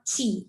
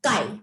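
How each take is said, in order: First: It starts with a ch sound and rhymes with see. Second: It starts with a k sound and rhymes with eye. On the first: The speaker calls it wrong. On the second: The speaker calls it right. "it is pronounced as"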